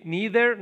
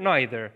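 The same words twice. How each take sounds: First: "neither" with long ee and th like Arabic dhal; NEE-ther, voiced th. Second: "neither" with eye vowel and th like Arabic dhal; NYE-ther, voiced th. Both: Shown as a demonstration.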